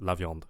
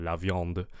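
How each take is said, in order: First: The final d is pronounced moderately. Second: The final d is strongly exaggerated.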